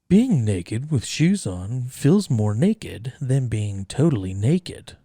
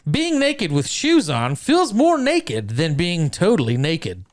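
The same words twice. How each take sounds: First: It is read in a sultry put-on radio voice. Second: It is read in a plain normal voice. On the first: "You gotta have the sexy N P R voice anytime you say naked" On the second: "read it one time just normal"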